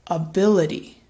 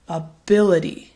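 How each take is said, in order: First: The first vowel is a relaxed schwa sound. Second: The same.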